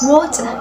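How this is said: It is spoken with a British accent. "In British accents"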